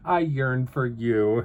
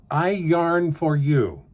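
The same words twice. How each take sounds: First: "yearn" said clearly as the longing word; yearn said as pun. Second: "Yarn" said as the word yarn, slowly; yarn said plainly. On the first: Crafter voices the card pun, "yearn" as longing. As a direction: say "yearn" with a rolled ur, slower. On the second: Card reader reads the pun slowly, "Yarn" as in wool. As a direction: read "Yarn" like the wool, drawn out. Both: Shown as a demonstration.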